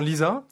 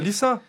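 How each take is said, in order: First: The s is buzzed like a z. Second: The s is hissed like in lisser. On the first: The speaker calls it wrong. "on vous appelle souvent Lisa" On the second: The speaker calls it right. "il faut dire Lisa"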